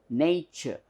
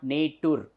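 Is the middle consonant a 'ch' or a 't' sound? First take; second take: ch; t. First: The middle consonant is a 'ch' sound. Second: The middle consonant is a plain 't' sound. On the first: The speaker calls it right. "This represents the sound ch" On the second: The speaker calls it wrong. "it is not nature"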